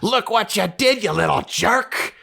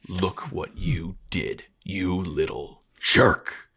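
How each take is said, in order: First: It sounds angry and exasperated. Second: It sounds dark and menacing.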